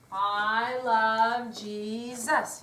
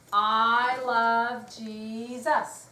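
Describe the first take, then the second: Both takes have the same delivery.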